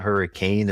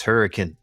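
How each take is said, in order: First: Hurricane said as HUR-ee-kane with a full long "kane" ending; wrong Hurricane. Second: Hurricane said as HUR-ih-kun with a short reduced "kun" ending; local Hurricane. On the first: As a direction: say hurricane like the weather storm, "kane" fully stressed. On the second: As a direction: say hurricane the Southern Utah way, last syllable swallowed to "kun". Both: Shown as a demonstration. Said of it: "you said it wrong".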